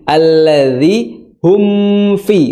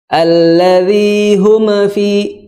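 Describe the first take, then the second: First: The m is held and flows straight on. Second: The m is released with a bouncing echo. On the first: The speaker calls it right. "ditahan dulu bibir ... langsung" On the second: The speaker calls it wrong. "suara mantul"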